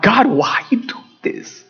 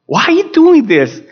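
First: Slow, held-back plea to God; retold plea. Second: Higher, insistent plea to God; retold anguished cry. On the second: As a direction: cry the question out in reenacted protest. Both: Father retells pleading with God.

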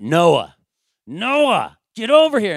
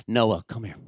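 First: Raised, high, loud call to a disobedient son; escalating exasperated father's shout; dad voice. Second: Said in the usual way. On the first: Retold or imitated. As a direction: bellow like a frustrated dad calling his kid. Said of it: "you start getting the dad voice". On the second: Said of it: "then you start getting the dad voice".

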